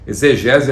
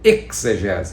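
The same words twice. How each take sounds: First: The word is said with ordinary Portuguese pronunciation. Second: The word is said with pronunciation closer to Greek.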